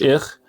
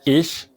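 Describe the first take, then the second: First: The ch is a harsh throaty kh sound. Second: The ch is a soft hissing sh-like sound. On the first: The speaker calls it wrong. "مش إخ" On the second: The speaker calls it right. "شين رقيقة قوي أو زي هسهسة القطة"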